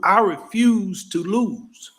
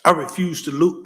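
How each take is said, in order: First: "I refuse to lose" said slowly, each word pressed; slowed, deliberate "I refuse to lose"; slow emphatic repeat. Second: Said in the usual way. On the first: Shown as a demonstration. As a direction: drag out "I refuse to lose" with weight.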